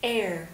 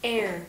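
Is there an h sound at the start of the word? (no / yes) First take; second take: no; no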